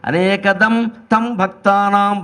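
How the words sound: There is a brief pause after anekadam.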